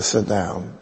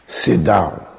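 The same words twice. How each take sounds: First: Said in the usual way. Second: Imitated accent, curt command to sit; Mother Teresa. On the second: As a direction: put on the nun's accent for a slow, firm order. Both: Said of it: "I have to use the accent".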